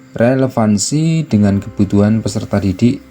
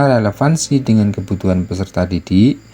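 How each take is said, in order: Both takes have the same delivery.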